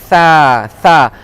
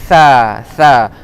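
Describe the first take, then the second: No difference in how they are said.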